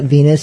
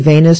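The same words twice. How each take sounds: First: The first syllable sounds like 'veen'. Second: The first syllable sounds like 'vain'. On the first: It is the usual name of the ship. "not Venus" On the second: It follows the misspelling on the album cover. "I say Venus"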